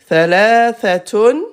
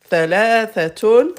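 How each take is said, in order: First: The word ends with a full -tun ending. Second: The word ends with a full -tun ending.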